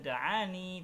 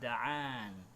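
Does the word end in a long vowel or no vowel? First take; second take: long vowel; no vowel. First: The word ends with a long ee vowel. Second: The word ends on the n, no vowel. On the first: The reciter keeps going without stopping. "tidak dibaca da'ani" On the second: The reciter stops on this word. "dibaca sebagaimana biasa da'an"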